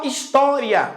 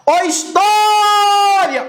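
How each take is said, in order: First: Said in the usual way. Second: High, slow call on história; long drawn-out call. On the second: Shown as a demonstration. Teacher hollering an example word to the class, stretched call. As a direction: holler história, holding the stressed vowel.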